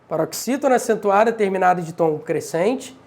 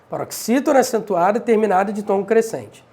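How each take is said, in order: The two takes are said the same way.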